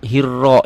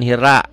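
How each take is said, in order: First: The vowel after the r sounds like o. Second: The vowel after the r sounds like a. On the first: The speaker calls it right. "ya A-nya diganti dengan O" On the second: The speaker calls it wrong. "jangan hira"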